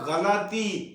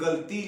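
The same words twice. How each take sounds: First: A short a vowel follows the l sound. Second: No vowel is heard between the l and t. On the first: The speaker calls it right. "लाम के ऊपर भी जबर है" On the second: The speaker calls it wrong. "ये गलती लफ्ज नहीं है"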